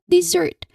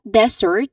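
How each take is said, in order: First: The stress is on the second syllable. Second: The stress is on the first syllable. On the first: The speaker calls it right. "the stress should be on the second second syllable" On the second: The speaker calls it wrong. "they put the syllable stress on the first syllable"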